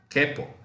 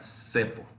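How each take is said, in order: First: The word begins with a hard K sound. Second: The word begins with a soft S sound. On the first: The speaker calls it right. "Para poder mantener el sonido, debemos decir que" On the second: The speaker calls it wrong. "si escribiéramos C con E, la pronunciación sería"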